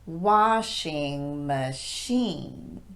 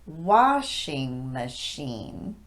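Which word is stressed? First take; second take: machine; washing. First: The stress falls on machine instead of washing. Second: The stress is on washing; machine is weak. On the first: The speaker calls it wrong. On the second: The speaker calls it right. "The stress goes on the first syllable of washing, and both syllables of machine are de-emphasized"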